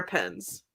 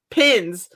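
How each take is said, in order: First: "pins" said as "pens", with the vowel of pen. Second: "Pins" said carefully, with the short i of pin; corrected to pin. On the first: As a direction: let "pins" slip into "pens". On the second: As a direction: fix it to a clear "Pins". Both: Shown as a demonstration. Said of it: "Such a difficult word".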